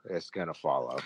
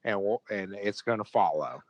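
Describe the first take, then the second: First: Softer, lower repeat trailing off; quiet echo. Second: Said in the usual way. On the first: Real, not acted. Podcast host echoing his own prediction to his co-host, quiet and low. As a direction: let it drop to a grim murmur.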